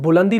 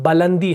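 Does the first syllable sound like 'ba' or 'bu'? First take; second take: bu; ba. First: The first syllable has a 'u' vowel. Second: The first syllable has an 'a' vowel. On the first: The speaker calls it wrong. "असल में बुलंदी लफ्ज नहीं है" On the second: The speaker calls it right. "बा को जबर देना है"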